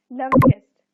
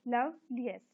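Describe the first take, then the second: First: Said in the usual way. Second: "loveliest" broken into its syllables; slight breaks inside "loveliest", part by part; split into syllables. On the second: Shown as a demonstration. Teacher dividing words for the class, "loveliest" syllable by syllable. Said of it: "इनको syllables में divide करना है".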